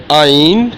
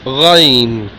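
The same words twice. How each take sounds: First: Ain from the throat, no rasp. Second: Ghain with a rasped throat r, drawn out. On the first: Teacher contrasting two letters, first Ain from the throat. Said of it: "First one". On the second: Teacher contrasting two letters, second Ghain rasped and slow. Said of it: "and it's Ghain". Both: Shown as a demonstration.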